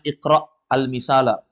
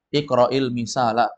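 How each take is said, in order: First: The hamza of iqra ends without a vowel. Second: The hamza takes an i vowel, linking onward. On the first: This is the underlying form before the repair. The speaker calls it wrong. "Itu asalnya iqra' al-misala. Iqra' itu sukun" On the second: A helping vowel makes it readable. The speaker calls it right. "hamzahnya yang sukun diharokati kasra"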